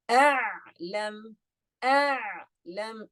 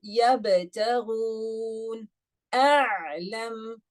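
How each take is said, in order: First: A'lam slow, the ayn held medium long; timed ayn. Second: Yabtaghun with a cut ba, then a'lam with a held ayn; contrast timings. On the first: Teacher shows class tawassut in a'lam. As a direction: give the ayn in a'lam middle time. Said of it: "Do you see that?". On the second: Teacher compares two words for class. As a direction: set yabtaghun against a'lam slowly. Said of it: "how much time I'm spending on the ayn". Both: Shown as a demonstration.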